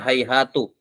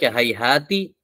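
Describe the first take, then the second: First: The word ends with a u vowel. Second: The word ends with an i vowel. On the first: "dan bisa di dhammah" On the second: "bisa di kasrah"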